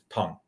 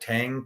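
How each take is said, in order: First: The vowel differs from the English 'a' sound. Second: The vowel is the plain English 'a' sound. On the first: The speaker calls it right. "the correct correct pronunciation is Tang" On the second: The speaker calls it wrong. "it looks like Tang, T A N G"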